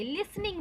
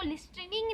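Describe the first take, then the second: First: लिसनिंग softly said as "lis-ning"; silent T in लिसनिंग. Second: लिसनिंग mispronounced with a hard t inside; T wrongly sounded in लिसनिंग. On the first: Teacher giving students the correct word, लिसनिंग with silent T. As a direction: leave the t out of लिसनिंग. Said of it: "बोलते हैं". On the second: Teacher warning students what not to say, लिसनिंग with audible T. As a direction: say लिसनिंग as "list-ring", the t fully heard. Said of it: "नहीं बोलते". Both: Shown as a demonstration.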